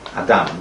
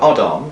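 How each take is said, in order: First: It is said with a Sephardi pronunciation. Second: It is said with an Ashkenazi pronunciation.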